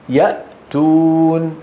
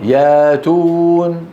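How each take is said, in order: First: A glottal stop follows the first syllable. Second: The glottal stop becomes a long a sound.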